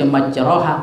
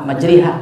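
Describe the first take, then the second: First: The vowel after the r is an open a. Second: The vowel after the r is fronted toward e. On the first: The speaker calls it wrong. "tak dibaca majroha" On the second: The speaker calls it right. "majriha, tergelicik dia"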